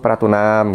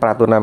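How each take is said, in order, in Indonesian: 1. Akhirannya dipanjangkan dengan nada mengalun. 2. Akhirannya pendek dan datar.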